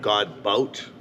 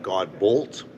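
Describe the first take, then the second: First: The second syllable ends with a t sound. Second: The second syllable ends with an l and t. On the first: This is another way people read the spelling. "That's kind of cool too" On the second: This is how people read the spelling. "I get God Bolt, which I kind of like"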